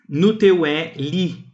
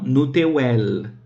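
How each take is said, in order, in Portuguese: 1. O pronome final é dito por inteiro, como li. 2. O pronome final é reduzido só para l.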